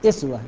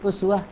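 First: The word begins with an 'i' vowel. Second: The word begins with a 'u' vowel.

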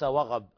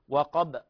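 First: The middle consonant sounds like a ghain. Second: The middle consonant is a clear qaf sound. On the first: The speaker calls it wrong. "ليس وغب" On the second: The speaker calls it right. "القاف ليست غين"

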